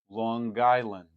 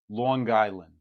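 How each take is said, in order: First: A hard g sound follows the ng. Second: A hard g sound follows the ng.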